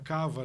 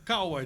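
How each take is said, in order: First: The middle consonant is a V sound. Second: The middle consonant is a W sound. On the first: This is a nickname people use. "Mas virou nome de guerra" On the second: This is the original surname syllables. "É Kawa, de Kawaguchi"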